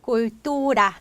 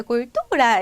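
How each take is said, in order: First: 또 stressed by force, tone kept level; stress without raised tone. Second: 또 pushed up in pitch; raised tone on stress. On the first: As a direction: lean on 또 without lifting the pitch. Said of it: "톤을 굳이 높이실 필요 없어요". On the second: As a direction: exaggerate the stress by lifting the tone on 또. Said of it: "이렇게 톤을 굳이 높이실 필요 없고요". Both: Shown as a demonstration.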